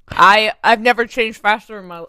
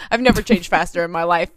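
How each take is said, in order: First: Talking round an ice cube, a bit muffled; words said past a cube of ice in the mouth. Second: Said in the usual way. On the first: Real, not acted. Telling the quick change story with an ice cube in her mouth. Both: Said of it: "sorry, I have an ice cube in my mouth".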